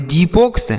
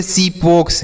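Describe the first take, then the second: First: जीपोक्स with a j at the start, "jee-poks"; wrong initial sound. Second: सीपोक्स with an s at the start, "see-poks"; correct s sound. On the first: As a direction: offer जीपोक्स with a questioning rise and a j sound. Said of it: "क्या इसे हम जीपोक्स पढ़ेंगे? नहीं". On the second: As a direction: begin सीपोक्स with s instead of j. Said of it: "सौ के रूप में होगा". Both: Shown as a demonstration.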